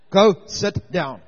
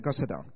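First: Loud, slow and firm; exasperated order. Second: Said in the usual way. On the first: Retold or imitated. Pastor sending the weeping woman back to her seat, loud and slow. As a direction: spell out the dismissal word by word, fed up. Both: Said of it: "I had enough".

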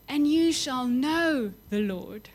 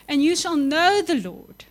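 First: Slow, measured repeat; slow echo. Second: Louder, higher proclamation; proclaimed. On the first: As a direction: let the words sink in slowly. Verse repeated slowly. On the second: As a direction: ring it out to the room. Preacher proclaims the verse. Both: Acted.

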